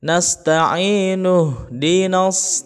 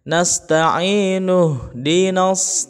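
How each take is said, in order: First: The 'ih' sound before 'dina' is dropped. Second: The 'ih' sound before 'dina' is dropped.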